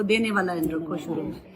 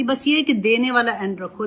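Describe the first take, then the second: First: دینے said lower and softer, leaned on as the key word; softer, lower echo stressing دینے; soft emphatic repeat. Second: Said in the usual way. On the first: Shown as a demonstration. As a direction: drop the voice and press دینے home.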